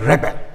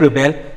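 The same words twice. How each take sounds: First: The stress is on the first syllable. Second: The stress is on the second syllable. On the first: It names somebody who revolts. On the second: It asks someone to refuse.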